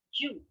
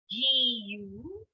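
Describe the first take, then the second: First: "Ju" as one short syllable, jyu; contracted. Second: "G U" as two syllables, ji-yu, both drawn out; separate syllables. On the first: Teacher contrasting with freedom for learners, "Ju" contracted. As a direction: cut "Ju" to a single quick sound. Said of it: "makes it a contracted sound". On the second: Teacher showing learners the word for freedom, "G U" uncontracted. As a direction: stretch "G U" into ji and yu. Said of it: "notice the difference". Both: Shown as a demonstration.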